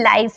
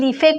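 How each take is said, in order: First: Said with an 'eye' vowel and no final vowel. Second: Read letter by letter, with an 'ee' vowel and final 'e'. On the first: The speaker calls it right. "इसे लीफे मत बोलिएगा, ये लाइफ है" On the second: The speaker calls it wrong. "लीफे कुछ नहीं होता है"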